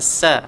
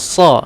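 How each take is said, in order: First: The s is said thin and light. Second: The s is said thick and heavy. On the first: The speaker calls it wrong. "jangan sa" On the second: The speaker calls it right. "Huruf sa pastikan tebal"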